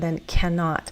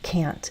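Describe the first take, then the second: First: The word is said fully with two syllables. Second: The word is shortened to one syllable. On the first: It is the complete form. "if I'm going to say the full one" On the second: It is the usual everyday form. "normally in everyday speech we use the contraction"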